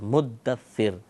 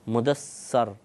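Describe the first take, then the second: First: A doubled d, and the last vowel is i. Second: A single d, and the last vowel is a. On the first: The speaker calls it right. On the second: The speaker calls it wrong.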